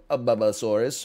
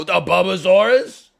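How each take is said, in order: First: Said in the usual way. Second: "A Bubbasaurus?" repeated slowly, much louder and higher, rising in mock awe; dad excitedly echoing the kid's dinosaur name, "A Bubbasaurus?" loud with a high rise; amazed echo. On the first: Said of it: "And then they go". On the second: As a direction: echo "A Bubbasaurus?" as if it's an astonishing discovery. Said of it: "And I go".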